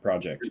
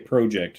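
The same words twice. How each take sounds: First: It is said with a non-Canadian pronunciation. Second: It is said with a Canadian pronunciation. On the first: "not project" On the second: "they say project"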